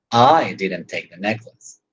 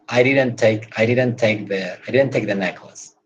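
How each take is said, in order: First: "I" stressed, rising, slow. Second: Said in the usual way. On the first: Shown as a demonstration. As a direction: put the weight on "I didn't take the necklace". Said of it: "But you can say". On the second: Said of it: "That's the neutral way of saying".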